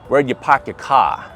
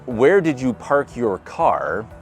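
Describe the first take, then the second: First: It is said in a Boston accent. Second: It is said in a Midwestern accent.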